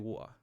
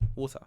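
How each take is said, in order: First: The T in the middle is dropped. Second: The T in the middle is clearly pronounced.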